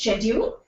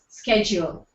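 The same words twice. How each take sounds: First: It is said with a British pronunciation. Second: It is said with an American pronunciation. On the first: "U K, it's schedule" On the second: "U S, it's schedule"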